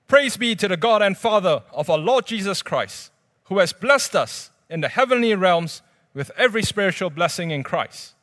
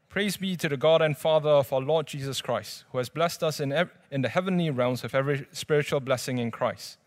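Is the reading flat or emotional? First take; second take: emotional; flat. First: It is read in an emotional, lively way. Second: It is read in a flat, unemotional way.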